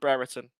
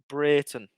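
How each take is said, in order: First: The name is said as Brereton. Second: The name is said as Brayton. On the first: This is how everyone used to say it. The speaker calls it wrong. "I used to call him Brereton" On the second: This is how the player himself says it. The speaker calls it right. "Brayton is how I pronounce it"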